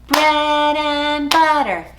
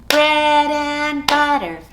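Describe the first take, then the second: The two takes are said the same way.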